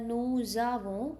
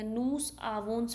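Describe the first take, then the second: First: The s links to avons as a z sound. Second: The words are said without a linking z sound. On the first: The speaker calls it right. "उन्हों की प्रोनाउंसिएशन ठीक है" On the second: The speaker calls it wrong. "you people need to correct your pronunciation"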